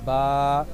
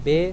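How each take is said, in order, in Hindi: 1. अक्षर के नाम का अंत 'ah' स्वर में होता है। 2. अक्षर के नाम का अंत 'ay' स्वर में होता है। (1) "इसको हम अरबी लहजे में अदा करेंगे" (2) "हम उर्दू में पढ़ते हैं"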